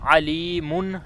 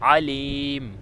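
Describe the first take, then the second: First: The word ends with an -un sound. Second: The word ends on a bare m sound. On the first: This is the full form without stopping. "आखिरी हरूफ की असल हरकत अलीमुन है" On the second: This is the form used when stopping. "इसका वक़फ़ हम करेंगे अलीम"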